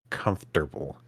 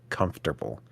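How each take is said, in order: The two takes are said the same way.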